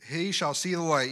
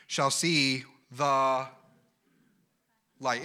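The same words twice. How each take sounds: First: He shall see the light, with he punched; re-read with the weight on he; stress on he. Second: Shall see the light, drawn out slow with weight on see; slow preacher's emphasis on see. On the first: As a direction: correct yourself and hit he. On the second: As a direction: stretch every word, lean on see. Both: Shown as a demonstration.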